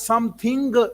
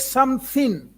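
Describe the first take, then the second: First: It ends with a hard g sound. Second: It ends without a hard g sound. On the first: The speaker calls it wrong. "We don't pronounce it as something. Don't pronounce G" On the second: The speaker calls it right. "The word is something"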